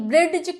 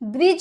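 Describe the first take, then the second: First: A distinct d sound is pronounced before the end. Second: No separate d sound is pronounced before the end. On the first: The speaker calls it wrong. "ब्रिज क्या होता है, कुछ नहीं होता है" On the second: The speaker calls it right. "ब्रिज होता है"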